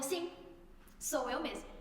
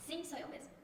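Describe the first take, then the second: First: Quoting Jesus's answer. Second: Very soft, hushed reply; quoting Jesus's answer. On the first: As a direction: say it simply, a little softly. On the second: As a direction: drop right down to a gentle, quiet confirmation. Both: Retold or imitated. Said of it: "Bem assim".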